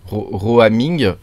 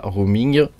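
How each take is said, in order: First: "Roaming" drawn out slowly in an English accent; self-mocking English accent. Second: Said in the usual way. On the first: Shown as a demonstration. Tutorial host jokes about his fine accent, saying "Roaming" in slow, showy English. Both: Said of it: "avec mon bel accent".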